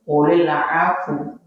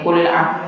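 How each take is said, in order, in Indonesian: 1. Kata terakhir berakhir dengan vokal u pendek. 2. Kata terakhir berakhir secara tiba-tiba pada bunyi f. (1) "secara ilmu tajwid yang benar gini" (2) "ada yang salah baca. Bacanya gini"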